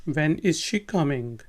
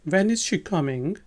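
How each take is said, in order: The two takes are said the same way.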